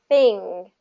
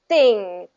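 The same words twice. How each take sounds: First: The th sound is loose and flows smoothly. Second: The th sound is tight and bursts out. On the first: The speaker calls it right. "I want it to be a smooth sound" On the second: The speaker calls it wrong. "if you go too tight, it's going to be thing"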